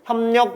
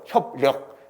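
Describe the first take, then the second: First: The syllables run together with the sounds assimilated. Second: The syllables are cut apart, sounds kept unlinked. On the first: The speaker calls it right. "그냥 자연스럽게" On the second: The speaker calls it wrong. "이거 끊어서 이거 진짜 발음 어렵죠"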